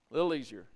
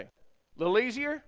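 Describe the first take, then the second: First: "A little easier." said low with a falling end; falling statement. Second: "A little easier?" asked with a high rise on "easier"; rising question. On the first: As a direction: settle "easier" down as an answer. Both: Shown as a demonstration.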